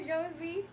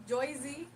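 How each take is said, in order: First: Said in the usual way. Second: Joyzy with an oy sound, ZH at the start; Joyzy pronunciation. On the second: Shown as a demonstration. Misreading a viewer's name as Joyzy, with an oy sound. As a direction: say Joyzy, not Josie. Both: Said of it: "Why am I calling you Joyzy like that?".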